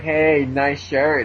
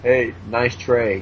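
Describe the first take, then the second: First: 1 slow mock girl. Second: 1 slow dopey Alan. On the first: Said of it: "She'd be like". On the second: Retold or imitated. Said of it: "And he'd be all like".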